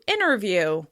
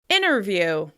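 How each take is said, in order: First: The T drops, so it starts like inner. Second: The same.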